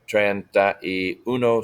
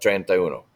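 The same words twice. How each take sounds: First: It is said at a slower, careful speed. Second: It is said at a faster speed.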